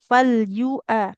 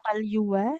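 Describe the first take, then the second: First: A glottal stop separates the two vowels. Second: A w sound joins the two vowels. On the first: The speaker calls it right. "Nah ini hamzah" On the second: The speaker calls it wrong. "bukan falyuwa"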